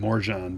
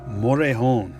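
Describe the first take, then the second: First: The name is said with a hard English J. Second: The name is said without a hard English J. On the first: The speaker calls it wrong. "I've been saying Morjan, but it's not" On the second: The speaker calls it right. "I think the J is silent"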